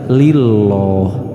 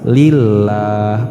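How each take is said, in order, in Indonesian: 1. Huruf 'l' itu tebal, dengan vokal seperti 'o' yang gelap. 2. Huruf 'l' itu tipis, dengan vokal 'a' yang jelas. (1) "bukan dibaca lilloh" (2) "maka tarkik tipis"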